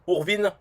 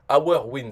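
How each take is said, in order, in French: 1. Le nom se prononce avec des sons français. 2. Le nom se prononce avec des sons anglais. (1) "en français, je dirais Our, Urvin" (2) "Hourwin, c'est notre gain"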